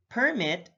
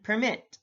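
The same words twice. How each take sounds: First: PERmit, first syllable stressed; careful demo of PERmit. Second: PerMIT, second syllable stressed; careful demo of perMIT. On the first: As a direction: hit the PER in "permit". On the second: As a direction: hit the MIT in "permit". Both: Shown as a demonstration. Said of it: "stress is the verbal emphasis used".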